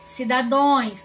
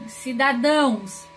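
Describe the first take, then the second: First: "Cidadões" ending in nasal -ões instead of -ãos; common wrong plural. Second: Said in the usual way. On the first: Shown as a demonstration. Teacher quotes what many people say, mistaken -ões ending on "Cidadões". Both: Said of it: "tá errado".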